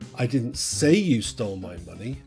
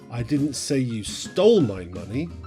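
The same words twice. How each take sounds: First: The word "say" is stressed. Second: The word "stole" is stressed. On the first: It was implied but never said aloud. "you did, I just didn't say it" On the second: The money was taken some other way. "you just didn't steal it"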